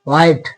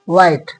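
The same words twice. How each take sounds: First: An h sound is heard at the start. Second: No h sound is heard at the start. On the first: The speaker calls it wrong. "हा नहीं आएगा, ना कि व्हाइट" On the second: The speaker calls it right. "सिर्फ व्हाइट"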